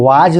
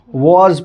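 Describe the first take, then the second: First: वाज with a long open "aa", vaaj; wrong pronunciation. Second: वॉज with a rounded "o", voz; correct pronunciation. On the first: Teacher showing students how not to read it, wrong pronunciation. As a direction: say वाज as "vaaj", ending in a j sound. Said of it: "इसको वाज नहीं पढ़ते हैं". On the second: Teacher giving the class the right reading, correct pronunciation. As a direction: say वॉज as "woz", rounded vowel. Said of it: "वॉज पढ़ते हैं". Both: Shown as a demonstration.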